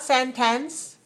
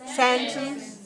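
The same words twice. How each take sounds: First: The second syllable is full and clear. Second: The second syllable is weak and short. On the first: The speaker calls it wrong. "Not sentence" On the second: The speaker calls it right. "Second syllable, weak, short"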